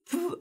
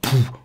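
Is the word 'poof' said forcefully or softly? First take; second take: softly; forcefully. First: The word is said quietly and with little force. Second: The word is said loudly and with force. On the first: The pulse pushes back weakly against the fingers. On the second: The pulse pushes back hard against the fingers.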